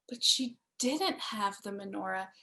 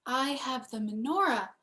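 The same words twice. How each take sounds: First: "didn't" pushed out and drawn longer; stress on didn't. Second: Said in the usual way. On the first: A narrator's reading. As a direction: lean hard on "didn't".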